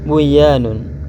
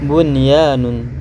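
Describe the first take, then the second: First: The n is merged into the following y. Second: The n before the y is pronounced clearly. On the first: The speaker calls it wrong. "tidak boleh buyanun" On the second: The speaker calls it right. "harus dibaca bunyanun"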